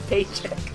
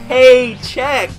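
First: The stress falls on the first part. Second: The stress falls on the second part. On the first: It means a salary payment. The speaker calls it wrong. "not paycheck" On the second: It means paying with a check. The speaker calls it right. "it's paycheck"

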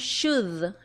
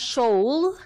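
First: The L sound is silent in the word. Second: The L sound is pronounced in the word. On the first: The speaker calls it right. "sino que decimos should" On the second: The speaker calls it wrong. "no decimos should"

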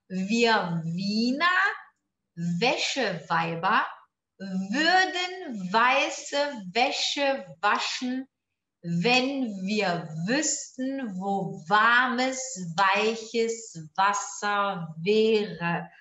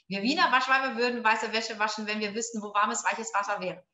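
First: It is read at a slower pace. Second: It is read at a faster pace.

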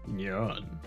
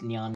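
First: It is said as a Leo impression. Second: It is said in a tiny voice.

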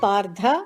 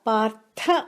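First: The last consonant is a voiced aspirated dh. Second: The last consonant is a voiceless aspirated th. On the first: The speaker calls it wrong. "థ please don't say ధ, it's not పార్థ" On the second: The speaker calls it right. "థ మహాప్రాణ"

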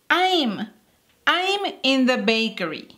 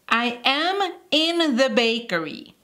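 First: 'I am' is joined into one syllable. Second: 'I am' is said as two full words.

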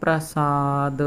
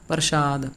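First: The middle consonant is a plain s sound. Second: The middle consonant is a sh sound. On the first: The speaker calls it right. "ਆਪਾਂ ਇਹਨੂੰ ਬੋਲਣਾ ਹੈ ਪ੍ਰਸਾਦ" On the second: The speaker calls it wrong. "ਸੱਸੇ ਦੇ ਪੈਰ 'ਚ ਬਿੰਦੀ ਲੱਗੀ ਹੋਵੇ"

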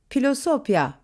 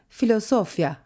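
First: The word begins with a p sound. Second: The word begins with an f sound. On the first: This is the older pronunciation, before the Republic. "Cumhuriyet dönemine kadar pi sesini verecek" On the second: This is the later pronunciation, after the Republic. "Cumhuriyet döneminden sonra ise filosofya halini alacak"

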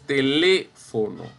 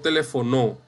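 First: The stress falls on the third-to-last syllable. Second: The stress falls on the last syllable. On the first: The speaker calls it right. "Es teléfono" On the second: The speaker calls it wrong. "no telefonó"

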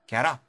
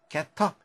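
First: The words link with a soft d sound. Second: The words link with a clear t sound. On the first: "T가 양쪽 모음 사이에 있으면 D 혹은 L로 발음되는 경우가 많습니다" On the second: "소리가 붙어서라면 get up"

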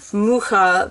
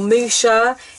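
First: The middle consonant is a throaty h sound. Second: The middle consonant is a sh sound. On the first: The speaker calls it right. "It is indeed mucha" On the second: The speaker calls it wrong. "or musha"

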